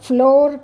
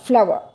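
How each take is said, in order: First: It is said with one syllable, like floor. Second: It is said with two syllables, like flower. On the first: The speaker calls it wrong. "ఫ్లోర్ కాదు" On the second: The speaker calls it right. "Pronunciation is ఫ్లవర్"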